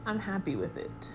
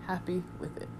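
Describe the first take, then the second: First: Said in the usual way. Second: Soft murmured repeat; quiet echo. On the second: Real, not acted. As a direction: say it again under your breath. Quiet echo of previous line.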